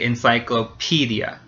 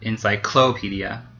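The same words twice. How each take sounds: First: The stress falls on the syllable 'pe'. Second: The stress falls on a syllable besides 'pe'. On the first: The speaker calls it right. "So we say encyclopedia" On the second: The speaker calls it wrong. "not encyclopedia. That sounds weird"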